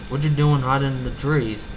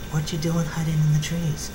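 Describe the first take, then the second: First: It is spoken in a deep, masculine character voice. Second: It is spoken in a soft, timid character voice. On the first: The speaker calls it right. "my big Macintosh voice" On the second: The speaker calls it wrong. "That was supposed to be Big Mac, not Fluttershy"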